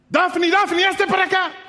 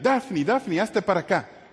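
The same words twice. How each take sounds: First: The call is said loudly and urgently. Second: The call is said softly and calmly. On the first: There is immediate danger. "el mismo mensaje pero con otro tono" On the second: There is no immediate danger. "Con ese tono de voz, porque no había peligro inminente"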